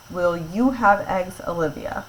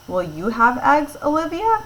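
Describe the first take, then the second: First: Said in the usual way. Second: Rising question to Olivia about eggs; questioning rise. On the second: Shown as a demonstration. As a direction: pitch climbs high on Olivia, asking. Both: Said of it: "actually asking a question".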